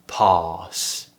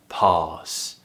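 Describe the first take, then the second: No difference in how they are said.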